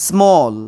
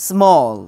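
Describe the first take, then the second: Both takes have the same delivery.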